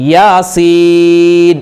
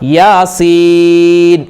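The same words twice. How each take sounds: First: The second syllable's vowel is drawn out long. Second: The second syllable's vowel is drawn out long.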